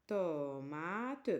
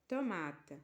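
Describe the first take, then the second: First: Tomate stretched out, pitch low, tune rising at the end; drawn-out model word. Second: Said in the usual way. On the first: Shown as a demonstration. Teacher modelling Tomate for pupils to repeat. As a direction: sing out Tomate slowly with a lifting end. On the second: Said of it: "Une tomate".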